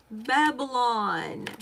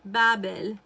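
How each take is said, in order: First: Said in the usual way. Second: 'Babel' said the Arabic way, lower and louder; Arabic pronunciation. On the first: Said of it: "That's how you would say it". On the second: Shown as a demonstration. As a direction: say 'Babel' as it's said in Arabic, firm and low. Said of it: "as we say it in Arabic".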